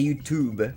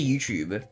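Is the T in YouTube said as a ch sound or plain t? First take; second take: plain t; ch sound. First: The t sounds like a plain t. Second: The t sounds like a ch sound. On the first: "in America, I think people say YouTube. Like, they say the T as it's, like, a, like a T" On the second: "I say YouTube"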